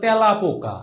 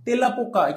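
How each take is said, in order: First: The first vowel is an open e sound. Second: The first vowel is a closed e sound. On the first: The speaker calls it right. "এইটাই সঠিক উচ্চারণ" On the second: The speaker calls it wrong. "কেউ বলে? বলে না কিন্তু"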